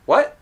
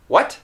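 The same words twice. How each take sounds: First: "What" with the final t held, no puff of air; natural rising "What" with a swallowed t; unreleased T. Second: "What" with a sharply released final t; over-careful "What" with a sounded t. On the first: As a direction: stop the end of "What" with the tongue, as a casual query. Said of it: "I'd say". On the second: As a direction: ask "What" and puff out the t at the end. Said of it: "I wouldn't say". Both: Shown as a demonstration.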